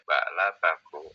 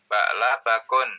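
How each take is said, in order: First: The word ends on a vowel without 'n'. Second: The word ends with an added 'n' sound. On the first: The speaker calls it right. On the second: The speaker calls it wrong.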